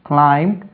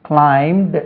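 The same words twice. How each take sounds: The two takes are said the same way.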